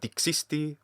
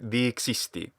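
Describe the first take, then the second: First: The first vowel is short. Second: The first vowel is long. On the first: The speaker calls it wrong. "If it were a short dixisti, as this actor pronounced it" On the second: The speaker calls it right. "we should hear dixisti"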